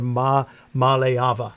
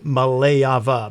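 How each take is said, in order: First: The stress falls on the final 'ava' part. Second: The stress falls on the middle 'male' part. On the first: The speaker calls it right. "I believe they prefer Ma Maleava at the end" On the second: The speaker calls it wrong. "the way I learned it when I read it was Maleava"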